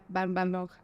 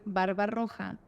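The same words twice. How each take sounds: First: The r in roja is not trilled. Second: The r in roja is a full trill. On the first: The speaker calls it wrong. "Yo de chiquita no podía decir la doble R" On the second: The speaker calls it right. "en vez de decir barba roja"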